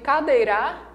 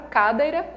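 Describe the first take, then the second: First: The stress is on the last syllable. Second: The stress is on the first syllable. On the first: "Não. Então não é essa última aqui" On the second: "Não. Então não é essa daqui"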